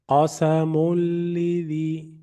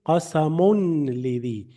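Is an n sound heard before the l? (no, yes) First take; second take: no; yes. First: The n merges into a doubled l sound. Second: An n sound is heard before the l. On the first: The speaker calls it right. "Without the tanween, I deleted it" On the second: The speaker calls it wrong. "I am not saying qasamun lidhi"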